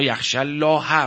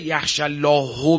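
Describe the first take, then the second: First: The word Allah ends with an 'a' vowel. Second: The word Allah ends with a 'u' vowel. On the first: The learned servants fear God. The speaker calls it right. "مفعول میشه الله دیگه" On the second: God fears the learned. The speaker calls it wrong. "یعنی خدا میترسد"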